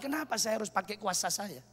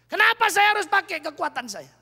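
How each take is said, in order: First: Softer, lower rhetorical question; hushed self-reproach. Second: Louder, higher repeat of the question; preacher's rising challenge. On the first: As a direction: ask it quietly, almost to yourself. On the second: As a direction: throw the question out to the congregation. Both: Acted.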